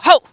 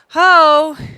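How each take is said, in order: First: The word is said sharply, like a bark. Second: The word is said softly and drawn out. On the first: The speaker calls it right. "I do a ho like a bark" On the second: The speaker calls it wrong. "I don't do a ho"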